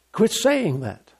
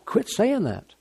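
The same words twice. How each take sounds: First: Quit saying that, drawn out slowly word by word; slow it right down and lean on "saying"; a deliberate, measured correction; slow, firm rebuke. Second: Said in the usual way. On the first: Shown as a demonstration.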